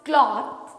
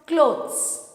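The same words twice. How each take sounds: First: Cloth with a short o and hard t. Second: Clothes with a long o and a z ending. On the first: Teacher contrasting cloth with clothes. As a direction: say cloth as klot. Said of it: "So this one is". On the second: Teacher contrasting clothes with cloth. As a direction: say clothes as klodz. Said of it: "And this one is". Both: Shown as a demonstration.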